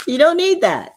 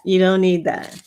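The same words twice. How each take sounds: First: High and louder, punching "You don't need that."; "You don't need that." said much higher with firm insistence; firm insistent first take; emphatic. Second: Said in the usual way. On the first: Shown as a demonstration.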